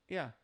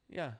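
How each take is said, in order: No difference in how they are said.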